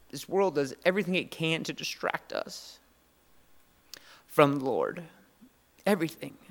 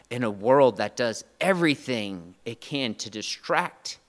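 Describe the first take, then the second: First: Emotional. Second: Said in the usual way. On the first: Real, not acted. Pastor moved thinking of his boys, emotional. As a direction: voice lifting with held-back emotion. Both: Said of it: "Sorry, I'm emotional".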